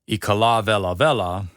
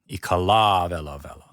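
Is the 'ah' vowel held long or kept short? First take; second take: short; long. First: The ah vowel is short, not held. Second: The ah vowel is held long. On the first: The speaker calls it wrong. "it's not" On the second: The speaker calls it right. "You hold that ah sound"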